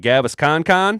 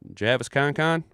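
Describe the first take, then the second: First: The name starts with a hard G sound. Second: The name starts with a J sound. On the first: "Did I say that right?" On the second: "Or is it J- Javis?"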